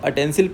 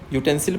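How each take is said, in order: First: The word begins with an 'uh' sound. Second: The word begins with a 'yoo' sound. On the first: The speaker calls it wrong. "अटेंसिल आप पढ़ते हो तो आ से आ शुरू हो जाती है" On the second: The speaker calls it right. "यूटेंसिल पढ़ते हो तो यू से शुरू हो जाती है"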